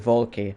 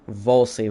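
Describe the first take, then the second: First: The middle consonant is a K sound. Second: The middle consonant is an S sound. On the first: The speaker calls it right. "It's Volky" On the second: The speaker calls it wrong. "I was calling him Volsy"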